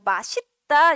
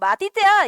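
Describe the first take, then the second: First: The linked middle consonant sounds like s. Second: The linked middle consonant sounds like d. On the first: The speaker calls it right. "맛있다 이래" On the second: The speaker calls it wrong. "우리는 보통 맛있다 이러지 않고"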